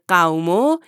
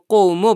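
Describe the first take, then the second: First: The first vowel is an 'aw' glide. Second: The first vowel is an 'oo' sound. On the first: The speaker calls it right. "مثل قومو" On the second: The speaker calls it wrong. "نباید اونو قومو بخونیم"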